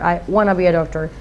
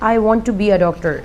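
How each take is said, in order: First: Want to is reduced to wanna. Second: Want to is said as two full words. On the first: The speaker calls it right. "No you should say ... by using this word in a fluent way" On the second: The speaker calls it wrong. "आप ये कहते हैं"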